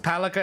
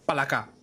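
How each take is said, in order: First: The name is read with English-style pronunciation. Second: The name is read with Tagalog-style pronunciation. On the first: It is the equipment's name in the game. "I'm assuming it's pronounced as Palaka in fourteen" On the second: It is the Filipino word for frog. "as someone from the Philippines, you read that as Palaka"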